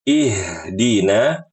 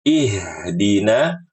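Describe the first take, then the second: The two takes are said the same way.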